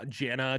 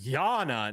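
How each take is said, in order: First: The name begins with a J sound. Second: The name begins with a Y sound. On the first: The speaker calls it right. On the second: The speaker calls it wrong.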